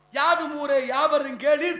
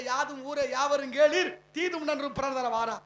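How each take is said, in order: First: Slow, loud, each word of யாதும் ஊரே யாவரும் கேளீர் weighted; solemn declamation. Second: Said in the usual way. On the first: Shown as a demonstration. Speaker to audience, intoning the ancient verse slowly and loudly. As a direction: savour கேளீர் with a rising finish. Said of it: "புலவன் பாடிய வாசகன்". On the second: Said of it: "சொன்னது கணியன் பூங்குடனார்".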